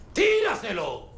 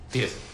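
First: High, drawn-out angry command; shouted order. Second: Said in the usual way. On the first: Acted. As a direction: shout the order with rising impatience. Repite la orden gritando. (orden gritada, aguda e impaciente)

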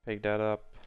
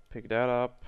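Both takes have the same delivery.

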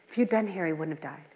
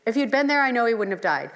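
First: Quiet, falling reproach fading away; grieving reproach. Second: Trusting conviction. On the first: Martha softly telling Jesus her brother would have lived. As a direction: let it sink as a hurt, softer lament. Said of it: "That's how Martha s-, introduced her". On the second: The sisters boldly telling Jesus he could have saved him. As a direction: lean into there with firm belief. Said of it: "how Martha and Mary responded". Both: Retold or imitated.

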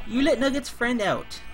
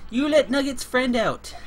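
No difference in how they are said.

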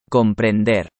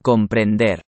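No difference in how they are said.

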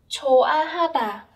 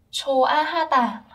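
The two takes are said the same way.

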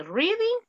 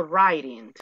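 First: "Reading" as REE-ding; Spanish I in the first syllable of "Reading"; pronunciation option with I. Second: "writing" as RYE-ding; pronunciation option with AI. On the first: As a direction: say "Reading" with a long EE. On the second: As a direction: say "writing" with an eye vowel. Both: Shown as a demonstration. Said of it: "¿Cómo se dice?".

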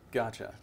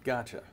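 The two takes are said the same way.

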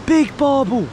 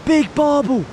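The two takes are said the same way.

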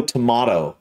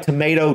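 First: Tomato as tuh-MAH-toe; British pronunciation. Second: Tomato as tuh-MAY-toe; American pronunciation. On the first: Reactor comparing two ways of saying a word, British pronunciation. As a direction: say tomato with the middle like "ma". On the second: Reactor comparing two ways of saying a word, American pronunciation. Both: Shown as a demonstration. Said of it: "just the way you would say".

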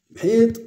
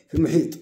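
First: "محيط" higher and louder, rising; emphatic repeat. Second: Said in the usual way. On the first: Shown as a demonstration. Stressing to learners, loud rising "محيط". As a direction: punch "محيط" up high.

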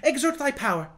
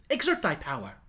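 First: Higher, urgent command; a boy king eager to see magic; impetuous zeal. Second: Excitedly. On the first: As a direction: push the order out with eager zeal. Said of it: "said with impetuous zeal". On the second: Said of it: "he added excitedly". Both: A narrator's reading.

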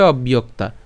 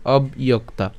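First: "অবইয়ক্তা" run together as obbiyokta; joined-up "অবইয়ক্তা", no break after ob. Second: "অবইয়ক্তা" split as ob, iyok-ta; separated pieces in "অবইয়ক্তা", ob then iyokta; said broken up. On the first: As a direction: say "অবইয়ক্তা" as one word, the b flowing into iyokta. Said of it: "একসাথে উচ্চারণ করলে কেমন হবে". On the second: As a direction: break "অবইয়ক্তা" cleanly after ob. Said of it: "ভেঙে উচ্চারণ করলে উচ্চারণ হবে কি". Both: Shown as a demonstration.

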